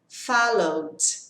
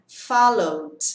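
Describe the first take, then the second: No difference in how they are said.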